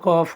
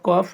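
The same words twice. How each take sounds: Both takes have the same delivery.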